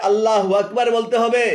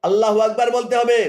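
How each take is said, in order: The two takes are said the same way.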